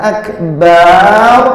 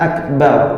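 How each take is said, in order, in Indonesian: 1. Vokal setelah huruf b itu panjang. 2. Vokal setelah huruf b itu pendek. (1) "Kalau sampai huruf ba-nya kita panjangkan" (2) "dengan huruf ba-nya pendek"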